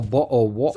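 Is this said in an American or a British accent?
British. It is said in an imitated British accent. "not a bottle of water like that"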